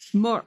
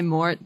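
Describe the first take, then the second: First: It is said with a French pronunciation. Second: It is said with an American English pronunciation. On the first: "like when you're speaking French, it's just like implied" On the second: "if you're speaking American English, you could say mort"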